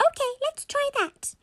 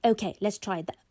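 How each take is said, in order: First: Very high-pitched squeaky mum; squeaky toy voice. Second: Said in the usual way. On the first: Acted. Mummy agrees to try the toy, squeaky voice. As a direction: say it in a tiny squeak. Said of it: "albeit in a very squeaky tone".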